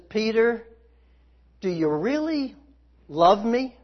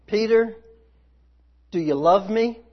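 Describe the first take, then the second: First: Really leaned on, falling, then love me rising; stress on really. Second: Said in the usual way. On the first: Shown as a demonstration. Jesus asking Peter a second time, leaning on really. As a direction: press the word really as a searching question. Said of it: "The second time he says". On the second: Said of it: "what he said the first time is".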